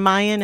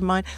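First: It is said with a strong Boston accent. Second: It is said with a standard accent. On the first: This is how a working-class Quincy local said it. "he would say, like, ... Mayan instead of mine" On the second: This is the usual way to say it. "instead of mine"

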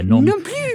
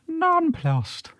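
First: The word is said with a French flair. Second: The word is said with an Irish accent. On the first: "giving it a little nice little French flair" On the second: "How would you say it in an Irish accent?"

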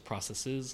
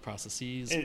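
First: The word ends in a plain, ordinary way. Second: The word ends in a fancy, official-sounding way. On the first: The speaker calls it right. "I guess it's processes" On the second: The speaker calls it wrong. "I kind of sounded more official saying that"

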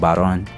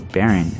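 First: The surname is said the traditional, Spanish way. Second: The surname is said the anglicized, English way. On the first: The name keeps its heritage. The speaker calls it right. "I'm proud of being a Barón" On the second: The name is adapted to fit in. The speaker calls it wrong. "They would try to let people say"

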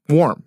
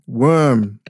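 First: The vowel is the open 'or' of warm. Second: The vowel is the 'er' sound of worm. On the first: The speaker calls it right. "the word warm" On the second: The speaker calls it wrong. "my grandmother not being able to say the word warm"

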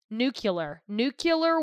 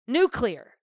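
First: The word's syllables are said differently from its spelling. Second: The word's syllables are said as it is spelled. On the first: The speaker calls it wrong. "he's one of those people that says nuclear" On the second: The speaker calls it right. "read the fucking word"

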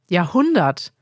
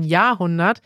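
First: The stress is on the second syllable. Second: The stress is on the first syllable. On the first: The speaker calls it right. "Man betont also die zweite Silbe" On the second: The speaker calls it wrong. "im Deutschen wird immer die erste Silbe betont"

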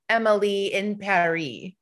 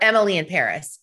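First: The title is said with a French pronunciation. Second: The title is said with an American pronunciation.

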